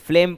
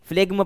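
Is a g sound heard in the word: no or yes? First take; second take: no; yes. First: The word is said without a g sound. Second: The word is said with a g sound. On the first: The speaker calls it right. "जी को नहीं पढ़ेंगे तो फ्लेम हो जाएगा" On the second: The speaker calls it wrong. "ना कि फ्लेग्म पढ़ेंगे"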